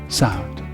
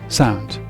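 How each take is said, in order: The two takes are said the same way.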